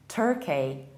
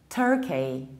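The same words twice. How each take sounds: The two takes are said the same way.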